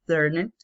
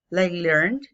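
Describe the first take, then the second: First: Learned said with an extra vowel, lɛrne; the past form after the base form. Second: Learned said as plain learn, no ending; present form. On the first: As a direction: say learned with the ending sounded out. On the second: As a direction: say learned like the base verb learn. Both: Shown as a demonstration.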